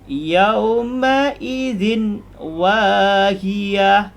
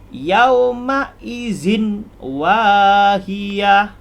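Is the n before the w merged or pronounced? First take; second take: pronounced; pronounced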